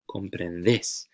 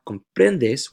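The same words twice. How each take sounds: First: Comprendes with final "des" stressed, as "déis"; stress on last syllable. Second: Comprendes with PREN stressed and a light ending; stress on middle syllable. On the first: Teacher contrasting vosotros with tú, slow final-syllable stress on comprendes. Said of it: "Make sure you really accentuate that stress". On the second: Teacher showing the tú form to avoid, slow middle-syllable stress on comprendes. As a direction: slowly punch the PREN in comprendes. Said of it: "which would be the tú conjugation". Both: Shown as a demonstration.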